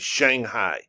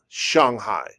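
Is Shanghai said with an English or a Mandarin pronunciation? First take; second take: English; Mandarin. First: It is said with an English pronunciation. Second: It is said with a Mandarin pronunciation. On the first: The speaker calls it wrong. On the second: The speaker calls it right.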